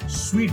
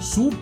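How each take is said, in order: First: The word sounds like 'sweet'. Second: The word sounds like 'soot'. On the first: The speaker calls it right. "स्वीट बोलते हैं" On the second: The speaker calls it wrong. "सूट नहीं बोलते"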